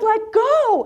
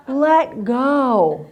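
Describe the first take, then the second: First: High-pitched mock yell; insistent shouted order, pitched way up; retold yell. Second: Said in the usual way. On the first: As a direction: holler it back as the instructor. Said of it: "And she yells".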